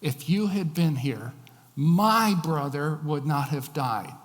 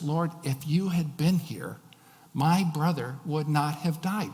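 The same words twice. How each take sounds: First: "my" leaned on, louder and slower; slow, loud stress on "my". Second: Said in the usual way. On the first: Shown as a demonstration. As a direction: punch "my brother", slow. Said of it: "the emphasis falls on the word my". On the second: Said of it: "sound like an accusation".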